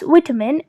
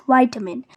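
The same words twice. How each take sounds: First: "vitamin" with short i, VIT-uh-min; British "vitamin", first syllable rhyming with "bit"; British pronunciation. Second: "vitamin" with a long i, VY-tuh-min; American "vitamin", first syllable like "why"; American pronunciation. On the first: Teacher contrasts British English, "vitamin" with a short i. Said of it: "In British English, it is pronounced". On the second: Teacher contrasts American English, "vitamin" with a long i. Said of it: "in American English, it is pronounced". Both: Shown as a demonstration.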